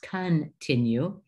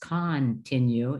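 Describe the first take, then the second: First: The first vowel is a short, reduced vowel. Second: The first vowel is a full, open vowel. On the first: The speaker calls it right. "it's continue" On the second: The speaker calls it wrong. "it's not pronounced continue"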